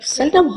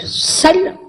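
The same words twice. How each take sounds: First: Said in the usual way. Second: Seldom repeated alone, much higher and rising; emphatic seldom. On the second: Real, not acted. Repeating the word to the audience, a high, rising Seldom. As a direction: pitch Seldom up high and let it rise.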